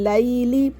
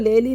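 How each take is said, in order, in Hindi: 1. पहला स्वर हल्की ai ध्वनि है। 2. पहला स्वर सादा e ध्वनि है। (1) "इस तरह नहीं पढ़ना लैली" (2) "इसको लेली नहीं पढ़ना"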